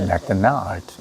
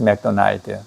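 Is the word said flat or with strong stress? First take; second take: stressed; flat. First: One syllable is stressed with clear rhythm. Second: The syllables are said evenly without stress. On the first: People understand and give directions. The speaker calls it right. "이렇게 해야지, 아, 알아듣고 가르쳐 주는 거예요" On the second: Nobody would understand or give directions. The speaker calls it wrong. "이러면 아무도 안 가르쳐 준다고"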